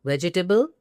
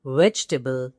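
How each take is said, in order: First: "Vegetable" as four beats, ve-ji-tuh-ble, rising; incorrect pronunciation. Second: "Vegetable" as three beats, VEJ-tuh-bl, lower; correct pronunciation. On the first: Teacher holding up the error, four-beat "Vegetable". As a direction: add a "ji" syllable inside "Vegetable". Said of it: "incorrect usage". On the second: Teacher approving the right form, compact "Vegetable". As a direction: drop the middle vowel of "Vegetable". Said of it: "spot on". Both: Shown as a demonstration.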